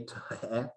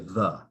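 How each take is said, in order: First: The word is sounded out letter by letter. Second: The word is said whole as one syllable. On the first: The speaker calls it wrong. "if you tried to sound out the word the" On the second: The speaker calls it right. "we say the"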